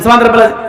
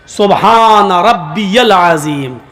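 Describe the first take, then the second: First: It is rushed, with words run together. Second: It is slow, with each word said clearly.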